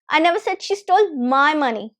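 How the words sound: The word "my" carries the main stress. Someone else's money was stolen. "if I stress my"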